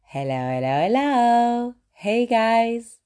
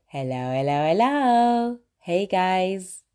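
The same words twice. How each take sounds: First: Sing-song hello, last hello jumping high; signature live greeting. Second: Sing-song hello with the last one leaping up; signature live greeting. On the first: Host starting her videos with a sing-song greeting. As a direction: open the video with the catchphrase, rising. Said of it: "I always start with". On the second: Host opening her live stream with a sing-song greeting. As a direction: greet viewers going live, bright and rising. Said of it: "I always say". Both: Shown as a demonstration.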